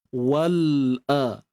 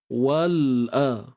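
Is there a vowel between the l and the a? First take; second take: no; no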